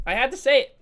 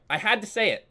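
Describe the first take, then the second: First: Higher and louder, almost shouted; louder, defiant second take; loud repeat. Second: Said in the usual way. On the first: Real, not acted. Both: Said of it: "I'm, I'm sorry".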